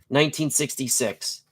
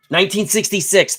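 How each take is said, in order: First: Said in the usual way. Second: Excited. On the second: Real, not acted. Remembering excitedly.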